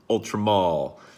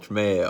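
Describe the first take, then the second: First: The last syllable sounds like 'mall'. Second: The last syllable sounds like 'mail'. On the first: This is how other people say it. The speaker calls it wrong. "or as some of you like to say" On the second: This follows the spelling with the E. The speaker calls it right. "but there's an E in there, so I'm going to call it Ultramale"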